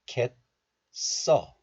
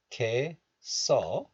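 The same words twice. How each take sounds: First: "cat" as 겟 with held t, then 써; stopped first syllable. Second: 개, 써 with 개 open on its vowel; linked pronunciation. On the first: Teacher showing the second option, stopped "cat" then 써. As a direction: stop "cat" on an unreleased t before 써. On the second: Teacher showing the first option, open 개 then 써. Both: Shown as a demonstration. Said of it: "Both are fine".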